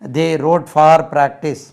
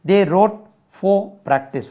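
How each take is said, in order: First: The word for sounds like far. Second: The word for sounds like fo. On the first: The speaker calls it wrong. "இது எப்படி ஃபார் என்று சொல்லி கொடுக்கிறார்கள்" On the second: The speaker calls it right. "ஃபோ பாருங்க"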